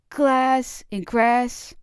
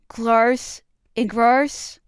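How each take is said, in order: First: The words use a northern English A vowel. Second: The words use a southern English A vowel. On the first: "I'd inherited the northern A from my parents" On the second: "the southern glarse and grarse"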